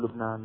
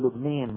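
First: The last vowel is an open a. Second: The last vowel is raised toward e. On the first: "ما بيقولوا لبنان" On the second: "أهل لبنان يميلون إمالة كبرى نعم بيقولوا لبنين"

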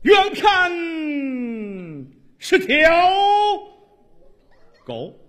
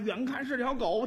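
First: It is recited in a resonant, theatrical voice. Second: It is spoken in a plain conversational voice.

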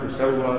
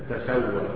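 First: The first syllable has a rounded 'u' vowel. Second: The first syllable has an open 'a' vowel. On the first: God would level the earth over them. "بضم التاء وتخفيف السين" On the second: The earth itself would be levelled over them. "وفتح التاء وتخفيف السين"

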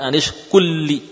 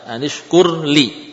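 First: The r is merged into a doubled l. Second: The r is pronounced clearly before the l. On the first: The speaker calls it wrong. "Bukan anishkulli" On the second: The speaker calls it right.

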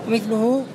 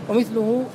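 The two takes are said the same way.

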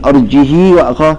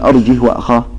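First: The h carries a lengthened i vowel. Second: The h is silent with no vowel. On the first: "ولا تقل أرجه وأخاه هذه صلة" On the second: "لا تقل أرجه وأخاه هذا إسكان"

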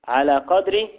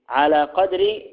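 No difference in how they are said.

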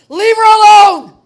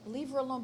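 First: It is said forcefully, with great passion. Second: It is said calmly, without passion.

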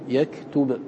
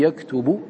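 First: The word ends on a silent final consonant. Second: The word ends with a final short vowel. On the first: This is the form used when pausing. "وقفت بالسكون" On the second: This is the original form in connected speech. "فتقول في يكتب"

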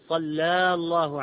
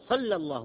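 First: The vowel after the l is long. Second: The vowel after the l is short. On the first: The speaker calls it wrong. "ما نقول صلى الله عليه وسلم" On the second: The speaker calls it right. "نكتفي بالفتحة على اللام ونقول صلى الله"

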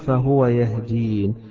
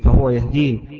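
First: The last word ends in a plain n. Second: The last word ends in an added ee vowel. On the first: "مشي على نفس الوزن الذي قبله الياء والنون" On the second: "الأصل يقول الذي خلقني فهو يهديني"

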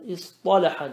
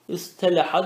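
First: The t is a heavy, emphatic t. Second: The t is a plain, light t. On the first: This is the form actually used. The speaker calls it right. "İstalaha demişler yani" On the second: This is the underlying form that is not actually used. The speaker calls it wrong. "İstelaha dememişler yani"

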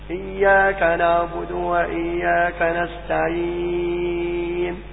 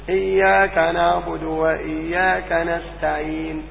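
First: The final long vowel is held for four counts. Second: The final long vowel is held for two counts. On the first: "وأربعة" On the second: "تقف بحركتين"

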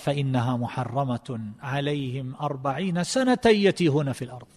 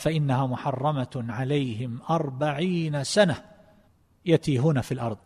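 First: The phrase runs on without a pause. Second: The phrase is broken by a pause. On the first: "على الوصل" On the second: "على الوقف في هذا الموضع"

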